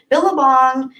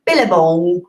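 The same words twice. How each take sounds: First: Said in the usual way. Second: Amateur Australian accent on the word; unconvincing Australian twang; attempted Australian accent. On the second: Shown as a demonstration. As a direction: have a go at Billabong in an Aussie accent. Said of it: "I can't do an Australian accent".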